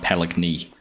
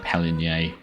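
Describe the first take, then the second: First: The G sound is clearly pronounced. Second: The G sound is left silent. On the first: The speaker calls it wrong. "definitely not Paligny" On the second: The speaker calls it right. "it is a, a silent one"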